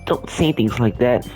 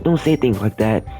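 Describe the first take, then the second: First: It is said without Yuri's character voice. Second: It is said in a put-on Yuri voice.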